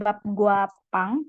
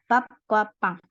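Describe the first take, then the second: First: The consonant in 'gwa' is a plain g. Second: The consonant in 'gwa' is a tense kk. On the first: The speaker calls it wrong. "Jadi bukan bab gua pang" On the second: The speaker calls it right. "bukan gua dibacanya tapi kwa"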